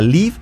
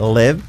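First: The vowel is a tense ee sound. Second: The vowel is lax, close to eh. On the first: The speaker calls it wrong. "cuidado la I, o sea que no sea live" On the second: The speaker calls it right. "que sea live con E"

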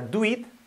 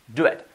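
First: The vowel in it is a clear ee sound. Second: The vowel in it sounds close to an e. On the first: The speaker calls it wrong. "que no sea do it" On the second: The speaker calls it right. "Lo mismo"

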